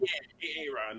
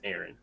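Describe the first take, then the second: First: The name is split into two separate parts. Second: The name is said as one smooth word. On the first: The speaker calls it wrong. "you've heard people pronounce that as A. Ron?" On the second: The speaker calls it right. "no, it's Aaron"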